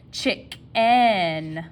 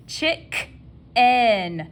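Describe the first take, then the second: First: "chicken" with a clear "en"; spelling pronunciation. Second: "Chicken" drawn out, Southern style. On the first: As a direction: say "chicken" carefully so the e shows. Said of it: "not chicken". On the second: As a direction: linger on "Chicken" the way a Southerner says it. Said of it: "Southern dialect strikes again". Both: Shown as a demonstration.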